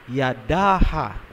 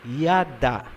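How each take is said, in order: First: The word ends with an extra 'ha' syllable. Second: The word ends after the second 'a' sound. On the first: The speaker calls it wrong. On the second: The speaker calls it right.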